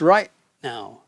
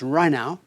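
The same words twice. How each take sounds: First: The T at the end of right is a stop. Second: The T at the end of right is dropped. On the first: The speaker calls it right. "There is like a stop" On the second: The speaker calls it wrong. "the last part of the words get left off"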